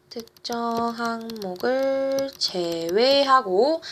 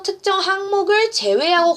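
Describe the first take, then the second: First: Drawn-out syllables, writing along; slow, evenly spaced dictation. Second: Said in the usual way. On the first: Real, not acted. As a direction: stretch each word as if writing it down. Repeats slowly while writing it out.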